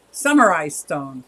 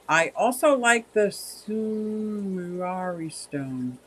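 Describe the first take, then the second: First: Samurai said carefully as SAM-uh-rye; corrected samurai. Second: Sumurari said slow, as soo-moo-RAH-ree; mispronounced samurai. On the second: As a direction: stumble over Sumurari, extra syllable. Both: Real, not acted. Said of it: "Ah, samurai".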